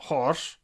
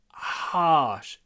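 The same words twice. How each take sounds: First: The vowel is said with a nearly closed mouth. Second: The vowel is said with a wide-open mouth. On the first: The speaker calls it wrong. "not harsh" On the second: The speaker calls it right. "You need to harsh"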